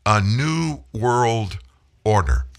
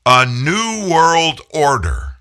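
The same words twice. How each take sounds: First: A new world order drawn out very slowly, new stressed; slow repeat. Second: A new world order said slow, high and loud; ominous quote. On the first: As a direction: repeat the phrase slowly and deliberately. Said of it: "said he wants to lead". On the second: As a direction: spell out the phrase like a warning. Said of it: "and this is a quote". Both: Retold or imitated.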